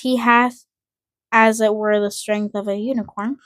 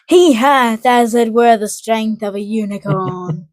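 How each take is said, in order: First: It is read plainly with little energy. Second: It is read with more energy and drama.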